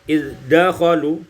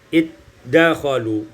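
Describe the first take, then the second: First: The dh is pronounced separately before the d. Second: The dh merges fully into the d.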